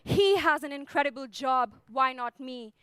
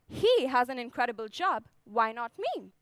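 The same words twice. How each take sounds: First: It sounds self-pitying and defeated. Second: It sounds confident and self-believing.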